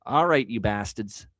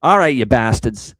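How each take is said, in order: First: Slow drawl in a Boston accent. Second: Loud, punchy fan rallying cry; louder retake. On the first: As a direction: say it like a Boston sports fan. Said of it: "I don't know why I said that with a Boston accent". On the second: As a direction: call out the team, louder. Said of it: "I'll say it again". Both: Real, not acted.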